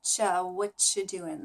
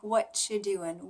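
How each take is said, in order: First: What you doing slurred as cha what you doing, slow; blended cha. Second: What you doing run together as whatchu doing; blended phrase. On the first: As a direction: say cha then blend whatchu doing slowly. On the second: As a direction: slur what you into one sound. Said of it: "like what you doing". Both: Shown as a demonstration.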